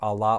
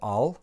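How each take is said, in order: First: The final vowel is pronounced. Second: The final vowel is dropped. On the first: "it's either Allah" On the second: "The final alpha elides"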